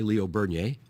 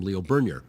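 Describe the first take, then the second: First: The surname is said with a French pronunciation. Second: The surname is said with an English pronunciation. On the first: "the more French way" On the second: "people, I think, in Northern Ontario also called him"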